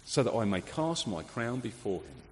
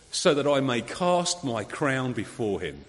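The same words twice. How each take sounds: First: Quiet, reflective repeat of the quote; softer echo. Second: Slow, reverent reading of the quote; quoted with reverence. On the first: Shown as a demonstration. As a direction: let it sink in softly. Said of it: "There was a ruler who knew she ruled under the king". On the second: Retold or imitated. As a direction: lay each word down slowly. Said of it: "this is the direct quote from Queen Victoria".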